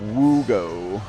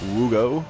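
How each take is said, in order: First: The O vowels are stretched out long. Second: The O vowels are short and quick.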